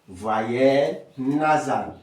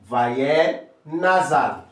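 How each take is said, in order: Both takes have the same delivery.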